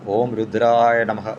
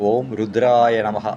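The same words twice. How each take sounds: Both takes have the same delivery.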